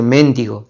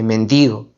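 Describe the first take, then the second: First: The stress falls on the first syllable. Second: The stress falls on the second syllable. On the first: The speaker calls it wrong. "el decir mendigo en lugar de" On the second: The speaker calls it right. "en lugar de mendigo"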